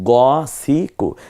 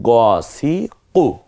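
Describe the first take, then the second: First: The first vowel is a darker, rounded o. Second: The first vowel is a darker, rounded o.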